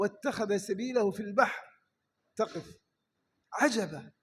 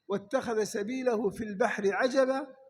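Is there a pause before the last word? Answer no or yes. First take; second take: yes; no. First: There is a pause before the last word. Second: The phrase runs on without a pause. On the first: The last word is an exclamation of amazement. "تقف وتقول عجبا" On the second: It took a wondrous path through the sea. "فيها قراءتان في الوقف"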